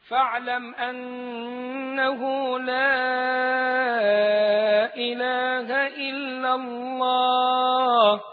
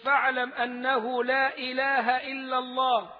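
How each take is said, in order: First: The vowels before each glottal stop are drawn out long. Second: The vowels before each glottal stop are kept short. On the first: "بمد المنفصل ويكون أربع أو خمس حركات" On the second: "لو أنك تقرأ بقصر المنفصل"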